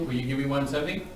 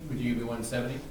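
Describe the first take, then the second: First: Says "Will" instead of would; will you. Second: Says "Would" at the start of the ask; would you. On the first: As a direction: start the question with "Will you". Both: Shown as a demonstration. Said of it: "You are saying would".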